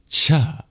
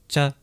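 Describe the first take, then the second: First: The consonant is released with a strong breath puff. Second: The consonant is released without a breath puff. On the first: "That's the aspirated palatal plosive" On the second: "This is not cha. This is cha"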